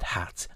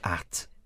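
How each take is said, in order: First: The word begins with a clear h sound. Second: The word begins without any h sound. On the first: "you said hat" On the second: "Normally you say at"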